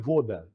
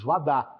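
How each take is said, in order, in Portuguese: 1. A primeira vogal soa como 'o'. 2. A primeira vogal soa como 'a'. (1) "mas na verdade escreve voda" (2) "água em russo a gente diz vadá"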